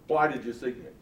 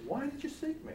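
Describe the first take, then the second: First: It is asked in a matter-of-fact tone. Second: It is asked in a surprised tone.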